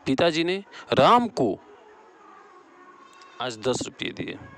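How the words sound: The stress falls on राम को. "यहाँ राम को हो जाएगा।"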